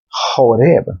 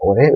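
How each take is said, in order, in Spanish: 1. La palabra empieza con un sonido de h aspirada. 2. La palabra empieza directamente con un sonido vocal. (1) "es Joreb" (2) "la pronunciación correcta del monte no es Oreb"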